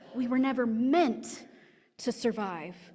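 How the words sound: The word meant carries the main stress. Oppressors work to keep the marginalized from surviving. "If the emphasis is on the meant"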